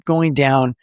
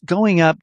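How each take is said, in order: First: Going down. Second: Going up. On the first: Coach demonstrating melody in the voice, going down. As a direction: pitch dropping back down. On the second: Coach demonstrating melody in the voice, going up. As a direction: pitch lifted high. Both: Shown as a demonstration. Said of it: "add a little bit of melody into your voice".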